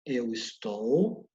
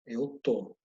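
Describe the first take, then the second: First: Slow "estou" with both syllables sounded; full form. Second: "tô" as one syllable, the first part of "estou" dropped; low-pitched "tô", cut down to one syllable; contracted form. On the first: Teacher contrasting forms for students, "estou" slow and uncontracted. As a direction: stretch "estou" out in full, lower in pitch. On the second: Teacher contrasting forms for students, "tô" contracted to one syllable. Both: Shown as a demonstration.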